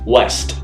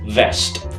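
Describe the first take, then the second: First: The word begins with a rounded W sound. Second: The word begins with a teeth-on-lip V sound. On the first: The speaker calls it right. "the W sound in the word west" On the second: The speaker calls it wrong.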